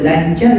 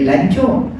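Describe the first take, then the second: First: The last syllable has an 'ar' vowel. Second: The last syllable has an 'or' vowel.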